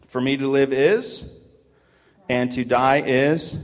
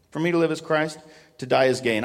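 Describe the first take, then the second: First: "For me to live is, and to die is" with slow pauses where the words are missing; leaving the key words out. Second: Said in the usual way. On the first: Shown as a demonstration. Preacher quizzing the church with a slow, gapped verse. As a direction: pause and let them fill the blank. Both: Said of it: "Isn't that crazy?".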